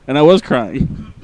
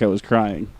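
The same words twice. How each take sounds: First: WAS leaned on, slowly; slow confession, punching "was"; stress on WAS. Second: Said in the usual way. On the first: Real, not acted. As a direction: hit the word "was" to insist it is true. Confirms he really was crying.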